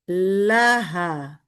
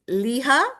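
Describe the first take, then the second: First: The first vowel is an 'ah' sound. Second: The first vowel is an 'ee' sound. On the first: The speaker calls it right. "It would be laha" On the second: The speaker calls it wrong. "that would be incorrect"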